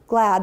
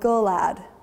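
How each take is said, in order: First: The g and l blend with no vowel between. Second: An extra uh vowel separates the g and l. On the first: The speaker calls it right. "why they can't go glad" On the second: The speaker calls it wrong. "They're going gullad"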